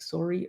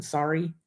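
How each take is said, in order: First: "sorry" with a rounded OH, like "sore-ee"; quiet try at a Canadian "soh-ree". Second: Said in the usual way. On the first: Shown as a demonstration. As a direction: attempt a Canadian "sorry", first vowel as in "sore". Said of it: "I can't say it quite right". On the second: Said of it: "or rather than".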